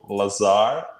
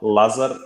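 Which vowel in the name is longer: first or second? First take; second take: second; first. First: The second vowel is held longer. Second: The first vowel is held longer. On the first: This is how people in the US say it. "in U S they usually go Lazar, like second A is longer" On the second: This is how people in Serbia say it. "Lazar is what they call me in Serbia... In Serbia, it's like first one is a bit longer"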